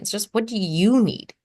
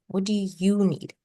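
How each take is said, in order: First: Said in the usual way. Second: Slow, each word set apart; slow gentle question. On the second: Shown as a demonstration. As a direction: ask it slowly and sincerely. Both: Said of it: "Don't have to be like me".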